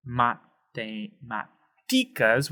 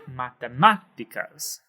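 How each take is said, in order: First: "matemáticas" very slow, with the stress on the wrong syllable. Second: "matemáticas" stressed on MÁ, ma-te-MÁ-ti-cas; correct stress. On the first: Teacher showing learners the wrong stress of "matemáticas". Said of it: "we're not gonna wanna say". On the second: Teacher modeling the correct stress of "matemáticas". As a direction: give "matemáticas" its proper accent on MÁ. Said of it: "We wanna say". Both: Shown as a demonstration.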